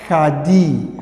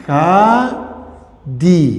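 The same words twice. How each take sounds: First: Said in the usual way. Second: خادی drawn out with every sound held long; slowly stretched خادی. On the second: Shown as a demonstration. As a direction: stretch خادی so students hear each vowel. (خادی را خیلی آهسته و کشیده بگو)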